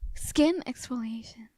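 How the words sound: It is read in a sexy voice.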